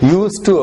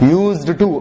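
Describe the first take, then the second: First: The d sound of 'used' is left silent. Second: The d sound of 'used' is clearly pronounced. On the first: The speaker calls it right. "யூஸ் டு அப்படின்னு படிக்கணும். டிக்கு உச்சரிப்பு இல்லாத மாதிரி படிக்கணும்" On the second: The speaker calls it wrong. "இத படிக்கும் போது யூஸ்டு டு அப்படின்னு படிக்க கூடாது"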